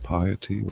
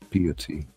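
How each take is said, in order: First: The first syllable sounds like 'pie'. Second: The first syllable sounds like 'pee'. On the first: "like a pie that you eat" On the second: "like a pee"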